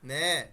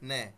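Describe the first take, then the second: First: The vowel is drawn out longer. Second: The vowel is cut very short. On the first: The speaker calls it right. "ওরা একটু টেনে বলে" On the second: The speaker calls it wrong. "খুব ছোট করে বলেন"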